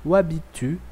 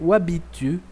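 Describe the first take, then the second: The two takes are said the same way.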